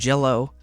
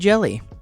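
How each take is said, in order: First: The word ends with an 'oh' sound. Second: The word ends with an 'ee' sound. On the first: The speaker calls it right. "It is green jello. They pronounce it that way" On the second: The speaker calls it wrong. "you might think to yourself, oh, that's a Y, so that must be jelly"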